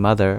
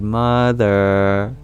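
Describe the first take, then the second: First: The vowels are said at normal length. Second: The vowels are drawn out and lengthened. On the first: "Instead of saying mother" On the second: "we might lengthen the vowels in their names"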